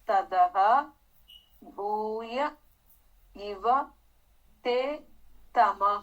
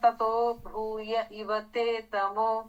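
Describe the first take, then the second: First: The words are split apart with full endings. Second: The words are run together with joined endings.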